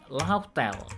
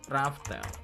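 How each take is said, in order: First: The name begins with an L sound. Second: The name begins with an R sound. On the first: The speaker calls it right. "yang bener itu Lauftel" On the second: The speaker calls it wrong. "bukan Raftel"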